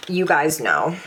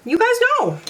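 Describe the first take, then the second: First: Said in the usual way. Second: "You guys know" jumped way up in a squeak; high squeaky repeat. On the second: Real, not acted. Teasing viewers in a high squeak about a repeat favorite. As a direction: squeal it in a high, playful pitch.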